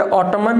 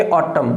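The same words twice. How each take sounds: First: ऑटमन with a sounded final n; the mistaken n at the end of ऑटमन; wrong pronunciation. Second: ऑटम ending on m; silent n. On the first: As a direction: say ऑटमन, adding the n after m. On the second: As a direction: say ऑटम with no n at the end. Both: Shown as a demonstration. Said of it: "ऑटमन नहीं बोलेंगे".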